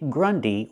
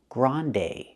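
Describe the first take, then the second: First: The first vowel is an 'uh' sound. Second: The first vowel is an open 'ah' sound. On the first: The speaker calls it wrong. "we don't say grundy" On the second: The speaker calls it right. "We need the ah sound, the open sound like hot and stop"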